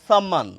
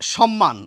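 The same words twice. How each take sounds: First: It begins with a plain s sound. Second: It begins with sh and has double m. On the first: The speaker calls it wrong. "দন্ত স এর উচ্চারণ দন্ত সই করছেন" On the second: The speaker calls it right. "এই সম্মানটি প্রমিত উচ্চারণ"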